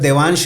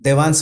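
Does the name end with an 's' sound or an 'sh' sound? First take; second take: sh; s. First: The name ends with an 'sh' sound. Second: The name ends with a plain 's' sound. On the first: The child's name is said correctly. The speaker calls it right. "Sir देवांश है, S H है in the end" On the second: The child's name is said incorrectly. The speaker calls it wrong. "देवांश बोलूंगा कैसा लगेगा? ... अच्छा नहीं लगेगा"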